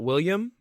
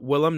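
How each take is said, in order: First: The name is said as William. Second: The name is said as Willem. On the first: The speaker calls it wrong. "not William" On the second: The speaker calls it right. "it's uh Willem"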